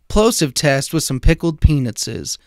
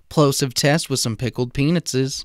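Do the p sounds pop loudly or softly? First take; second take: loudly; softly. First: The p sounds make loud pops. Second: The p sounds make soft pops. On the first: "without the windscreens on" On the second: "with the windscreens on"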